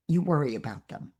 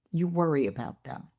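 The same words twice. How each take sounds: The two takes are said the same way.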